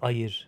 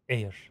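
First: It is said with an Indonesian-style pronunciation. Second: It is said like the English word air.

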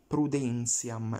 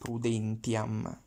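First: The t before i is said as a ts sound. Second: The t before i is said as plain t. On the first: The speaker calls it right. "So we read like English Z" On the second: The speaker calls it wrong. "not prudentiam"

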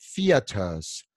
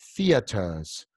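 First: A British accent, strong t and soft r. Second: The same.

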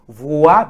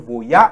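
First: No 'y' glide is heard after 'vo'. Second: A 'y' glide is heard after 'vo'. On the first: The speaker calls it right. "it is voa, because there is in oa" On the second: The speaker calls it wrong. "people mistaken with the voya, with they say voya. It's not voya"

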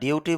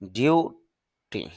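First: The first syllable is weak and short. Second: The first syllable is stressed and long. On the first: The speaker calls it wrong. "কিন্তু duty উচ্চারণটা হবে না" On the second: The speaker calls it right. "এখানে একটা চাপ দিতে হবে... একটু টান হবে... দীর্ঘ উচ্চারণ"

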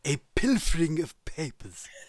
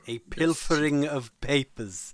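First: It is said in a Mister Burns impression. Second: It is said in his normal voice.

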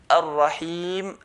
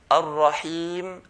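No difference in how they are said.

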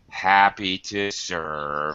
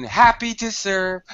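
First: The voice is tired, flat and low. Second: The voice is lively, energetic and high. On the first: It is said worn out at the end of the day. "by 9 o'clock at night, it's like" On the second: It is said fresh at the start of the day. "it's very lively, very full of energy, very high intonation"

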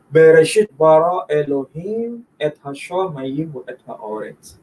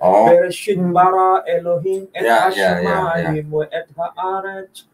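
First: Read Yemenite style, with differently coloured vowels. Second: Read Sephardi style, with vowels mostly sounding a. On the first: "Tapi kalau yang versi Temoni lain lagi"

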